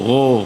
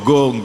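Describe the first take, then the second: First: It starts with a soft, throaty friction sound. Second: It starts with a hard, closed g sound. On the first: The speaker calls it right. "lidahnya ke atas tapi tidak usah nempel" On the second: The speaker calls it wrong. "tidak go, Ini anak seringnya gitu"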